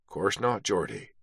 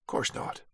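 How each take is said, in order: First: Knowing quiet reply. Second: Breathy whisper of Course not, knowing; whispered repeat. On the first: Beattie knowing reply, dropping voice. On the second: Beattie to Carter, whispering the repeat knowingly. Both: A narrator's reading.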